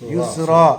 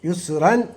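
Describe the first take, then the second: First: The word ends on a long vowel, without n. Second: The word ends with an n sound. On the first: The reader stops on this word. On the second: The word runs on without a stop.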